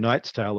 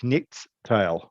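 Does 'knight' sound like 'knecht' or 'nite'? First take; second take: nite; knecht. First: Knight is said with the modern 'eye' vowel. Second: Knight is said with a short vowel and 'ch'. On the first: This is how the word is said today. "it wouldn't be a knight's tale" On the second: This is how the word was said long ago. "it would be a knecht's tale"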